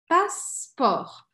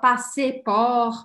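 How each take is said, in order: First: The middle vowel is dropped between the syllables. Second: The middle vowel is pronounced between the syllables. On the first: The speaker calls it right. "A gente corta esse E aqui do meio" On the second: The speaker calls it wrong. "A gente não fala passer por"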